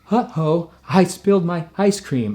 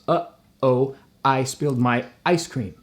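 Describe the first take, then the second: First: The vowels begin smoothly without glottal catches. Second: The vowels begin with sharp glottal catches. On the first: "I have to really avoid that" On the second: "in one sentence I've done four glottals"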